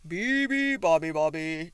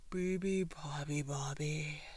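First: Trumpeting elephant. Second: Drowsy sigh, sinking in pitch; sighing elephant. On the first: Elephant waking the sleeping bird, loud trumpeting. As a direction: trumpet the bird's song at full volume. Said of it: "trumpeted the elephant". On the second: Elephant closing his eyes, sleepy sighing chant. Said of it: "sighed the elephant". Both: A narrator's reading.

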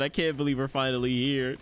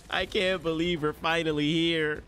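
First: Said in the usual way. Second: Drawn-out, emotional disbelief; overwhelmed excitement. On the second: Real, not acted. Fan at the long-awaited premiere, slow overwhelmed disbelief. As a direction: stretch it out, almost wailing.

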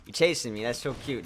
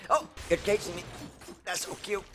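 First: Said in the usual way. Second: Mock cute voice.

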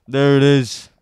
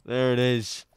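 First: Loud excited cheer; triumphant shout. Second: Said in the usual way. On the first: Real, not acted. Finds the code, repeats triumphantly.

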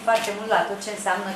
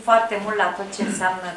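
No difference in how they are said.

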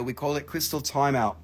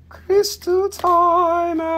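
First: Said in the usual way. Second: Very high, drawn-out call; playful announcement. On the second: Pretend. Seller renames Crystal Jail, in a high playful croon. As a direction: sing it out slowly way up high.

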